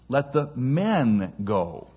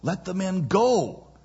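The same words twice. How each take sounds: First: The word men is stressed. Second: The word go is stressed. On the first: Only the men should be released, not others. "He thought the operative word was" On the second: The people should be released at once. "The operative word being go, the emphasized word being go"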